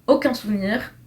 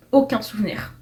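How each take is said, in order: Both takes have the same delivery.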